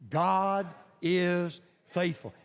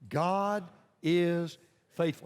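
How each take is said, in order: First: It is said forcefully, with strong conviction. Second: It is said plainly, without extra force.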